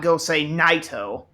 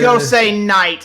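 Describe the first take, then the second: First: The last word ends with an added 'toh' syllable. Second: The last word ends with a bare t sound. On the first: The speaker calls it wrong. "It's not go say Naito" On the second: The speaker calls it right. "It's go say night"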